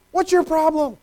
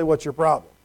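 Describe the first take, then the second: First: High, sharp, impatient snap; mock impatient parent; harsh dismissal. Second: Low, matter-of-fact challenge; firm with a teenager; dry, no-nonsense parent; low, firm question. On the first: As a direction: brush off a scared child. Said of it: "You're a terrible parent". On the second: Retold or imitated. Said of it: "then maybe it's time to say".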